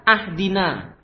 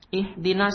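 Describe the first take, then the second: First: The word begins with the vowel 'a'. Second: The word begins with the vowel 'i'. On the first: The speaker calls it wrong. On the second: The speaker calls it right.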